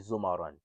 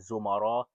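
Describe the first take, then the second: First: The word ends with an added n sound. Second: The word ends on a vowel, with no n. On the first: The reader continues without pausing. "But if you choose not to stop ... you can say zumaran" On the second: The reader pauses at the end of the word. "If you stop right here, you can pronounce it zumara"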